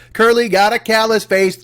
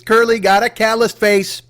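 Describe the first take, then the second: First: Put-on slow sing-song kid taunt; schoolyard taunt. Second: Slow sing-song playground taunt; schoolyard taunt. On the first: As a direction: tease it like a playground chant. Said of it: "yell that at somebody". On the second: Pretend. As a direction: chant it at a classmate. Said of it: "make that your new taunt".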